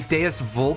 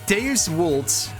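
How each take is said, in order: First: It is pronounced in a casual English way. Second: It is pronounced in a more Latin way. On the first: The speaker calls it wrong. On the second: The speaker calls it right.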